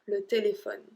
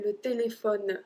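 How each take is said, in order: First: The word ends on the N sound. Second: The final E of téléphone is sounded. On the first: The speaker calls it right. "I just cut the word after the N" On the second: The speaker calls it wrong. "I don't pronounce the E. I don't say le téléphone"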